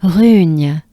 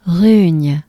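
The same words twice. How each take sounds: The two takes are said the same way.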